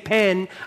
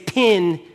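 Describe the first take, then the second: First: The vowel sounds like 'eh', as in bed. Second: The vowel sounds like 'ih', as in bid. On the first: "I don't say pen" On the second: "I say pin"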